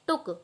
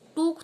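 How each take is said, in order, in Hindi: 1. स्वर छोटी u ध्वनि है। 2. स्वर लंबी oo ध्वनि है। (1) "छोटे ऊ की ध्वनि निकलती है" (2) "टूक थोड़ी पढ़ते हैं"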